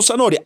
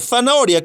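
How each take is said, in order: First: The first consonant is pronounced as an s sound. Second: The first consonant is the distinct Spanish z sound. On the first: This is how the speaker's region says it. "que decimos" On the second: This is not how the speaker's region says it. "No decimos"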